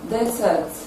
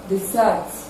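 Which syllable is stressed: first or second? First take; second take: first; second. First: The stress is on the first syllable. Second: The stress is on the second syllable. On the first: It is used as a noun. "the noun will have its stress on the first syllable" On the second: It is used as a verb. "the verb will have its stress on the second syllable"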